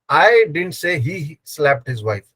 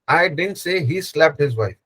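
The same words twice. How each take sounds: First: The stress falls on the word I. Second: The stress falls on the word didn't. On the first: Someone else said it. "I didn't say. Someone else said" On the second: The speaker flatly denies having said it. "Where you are stressing on the didn't"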